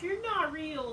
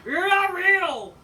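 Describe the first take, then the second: First: Said in the usual way. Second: Slow, high, loud shouted accusation; mock yell. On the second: Fan imitating Miro yelling at Lana, hammed-up slow yell. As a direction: bellow it at her, dragging it out. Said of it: "He's like".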